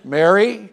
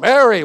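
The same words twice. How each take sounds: First: The name is said softly and gently. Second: The name is said strongly and forcefully.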